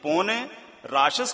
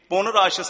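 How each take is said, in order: First: The first word is a longer 'pone'. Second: The first word is a short 'pun'. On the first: The speaker calls it right. "ਪੋਨੇ ਰਾਸ਼ਸ ਕਾ ਕਾਟਾ ਸੀਸਾ" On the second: The speaker calls it wrong. "ਪੁਨ ਰਾਸ਼ਸ ਨਹੀਂ"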